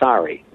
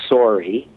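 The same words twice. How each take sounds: First: It is said with an American accent. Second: It is said with a Canadian accent.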